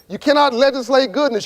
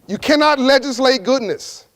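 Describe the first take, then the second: First: It is said fast. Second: It is said slowly.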